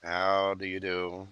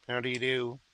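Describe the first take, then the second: First: Slow, soft, silky menace; drawn-out creepy courtesy; Hannibal Lecter. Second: Mock polite greeting. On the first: Acted. To Evelyn, the client, as a slow, softly menacing Hannibal. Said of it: "I feel like that". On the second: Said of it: "Silence of the Lambs".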